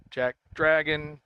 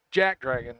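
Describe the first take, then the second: First: "Dragon" said slowly, apart from Jack; varied syllable emphasis. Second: JACK punched, Dragon dropping away; stress on JACK. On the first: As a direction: say Jack, then a drawn-out Dragon. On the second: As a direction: hit the word Jack in Jack Dragon. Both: Shown as a demonstration. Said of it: "put the emphasis on the syllable of your choice".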